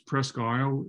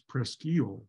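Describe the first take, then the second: First: The name is said the way Maine says it. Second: The name is said the way Michigan says it. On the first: This is the name of the place in Maine. "this Presque Isle in Maine" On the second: This is the local name of the place in Michigan. "But in Michigan, it's Presqu'île"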